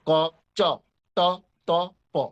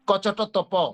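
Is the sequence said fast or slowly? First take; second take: slowly; fast. First: The letters are said at a slower pace. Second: The letters are said at a faster pace. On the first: "এইভাবে" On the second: "আরো দ্রুত বলি"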